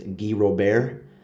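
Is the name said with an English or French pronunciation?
French. The name is said with French sounds. The speaker calls it right.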